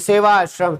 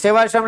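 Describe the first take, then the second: First: The two parts are said as separate words. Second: The two parts merge into one word. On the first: The speaker calls it right. "सेवा आश्रम है" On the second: The speaker calls it wrong. "कई लोग इसको सेवाश्रम बोलते हैं, सेवाश्रम नहीं है"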